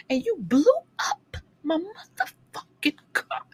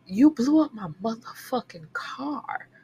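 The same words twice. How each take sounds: First: Mock outrage. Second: Whispered mock outrage. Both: Ranting at the character.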